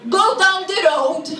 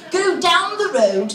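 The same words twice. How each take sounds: First: Put-on louder, blunt Maltese accent; imitated Maltese-accented local; Maltese English. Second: Put-on slow, plummy British accent; posh, polite British directions; snotty British guy. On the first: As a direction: give directions in broken Maltese English. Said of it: "a Maltese person who doesn't speak English very well". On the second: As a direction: draw it out like a snooty English gentleman. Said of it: "snotty-nosed British guy who would go".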